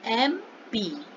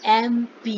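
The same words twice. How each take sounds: First: MP stretched out slowly as "em-pee" for students to repeat; slow, drawn-out MP for the class to repeat; slow drill. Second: Said in the usual way. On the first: Shown as a demonstration. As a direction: draw out MP slowly so the class can copy it. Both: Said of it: "बोलिए".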